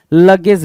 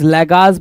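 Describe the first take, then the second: First: Said in the usual way. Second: लेगाज with a long "gaaz" ending; misread pronunciation. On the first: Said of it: "लगेज होना चाहिए था". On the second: Shown as a demonstration. Teacher showing students the misprinted word, लेगाज said as le-gaaz. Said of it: "लेगाज बोल दिया".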